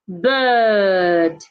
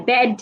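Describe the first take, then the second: First: The vowel is a central 'er' sound. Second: The vowel is a short open 'eh' sound. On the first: The speaker calls it right. "B I R D is bird" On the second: The speaker calls it wrong. "Most people pronounce these two words the same way. You hear bed"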